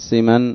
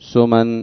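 First: The first vowel is an i sound. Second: The first vowel is a u sound. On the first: "وكسرها أيضا" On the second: "بضم السين"

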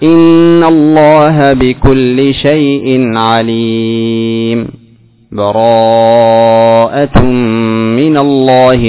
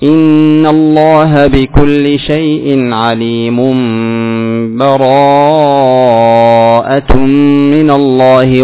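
First: A brief silent stop without taking a breath. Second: The phrases run together with no stop between. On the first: "هذا سكت" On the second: "والوصل"

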